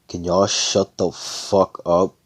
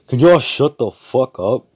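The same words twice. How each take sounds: First: It is said at normal volume. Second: It is yelled loudly.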